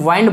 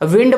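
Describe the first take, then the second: First: The vowel is long, as in 'find'. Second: The vowel is short, as in 'pinned'. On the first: This is how it is said in England. "England में वाइंड बोला जाता है" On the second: This is how it is said in America. "America में विंड बोला जाता है"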